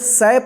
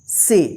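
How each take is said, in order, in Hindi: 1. स्वर एक छोटी 'a' ध्वनि है। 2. स्वर एक 'e' ध्वनि है। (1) "इसको ना तो स पढ़ेंगे" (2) "तो इसका उच्चारण ए होगा"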